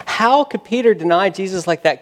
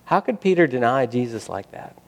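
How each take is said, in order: First: Higher, forceful preacher's question; HOW hit hard, incredulous preaching; impassioned disbelief. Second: Said in the usual way. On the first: Real, not acted. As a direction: press the question with rising passion.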